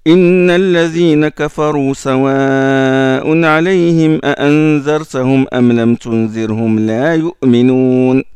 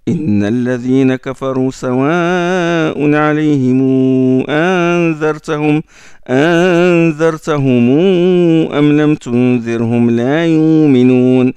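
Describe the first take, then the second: First: The vowels before the hamza are kept short. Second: The vowels before the hamza are lengthened. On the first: This is one reading tradition of the verse. "Ça c'est Hafs" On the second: This is another reading tradition of the verse. "Ça c'est Warsh. Le mad al-hamz, le mad al-mim al-jam"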